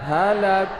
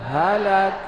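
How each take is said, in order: The two takes are said the same way.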